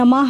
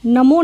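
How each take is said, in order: First: The word ends with an 'ah' sound. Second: The word ends with an 'o' sound. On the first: The speaker calls it right. "जो हमारा ओम नमः है" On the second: The speaker calls it wrong. "नमो नहीं है"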